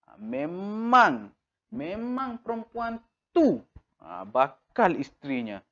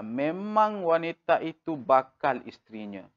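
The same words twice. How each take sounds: First: Memang drawn out slowly and pitched high; stress on memang. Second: Said in the usual way. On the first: Shown as a demonstration. Teacher showing emphasis on memang. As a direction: lean hard on memang, slowly.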